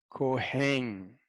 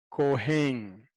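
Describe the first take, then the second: No difference in how they are said.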